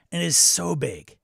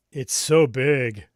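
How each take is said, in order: First: Slow, louder "so big" with weight on "so"; exasperated emphasis on size; emphatic. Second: Very slow, loud, stretched "It's so big." with "so" dragged out; over-the-top mock exasperation; hammed-up drawl. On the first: Acted. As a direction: lean on "so" in "And it's so big.". Complaining about huge GM screen. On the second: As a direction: drag "so" out long and heavy in "It's so big.". Repeating complaint, exaggerated further.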